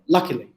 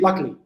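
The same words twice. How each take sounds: First: The word is said slowly and carefully. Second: The word is said quickly and reduced. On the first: "The stress in the first uh, syllable" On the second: "When people say it quickly"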